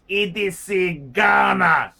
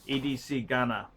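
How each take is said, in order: First: Loud, slow proclaimed E D C Ghana; mock grand sign-off. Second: Lower, softer muttered E D C Ghana; quiet aside. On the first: Reading out the viewer's sign-off, loud slow proclamation. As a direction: boom out E D C Ghana slowly like an announcement. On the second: Acted. Repeating the viewer's name to himself, quiet low aside.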